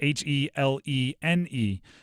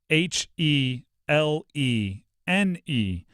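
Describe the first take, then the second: First: The letters are spelled out at a normal pace. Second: The letters are spelled out more slowly.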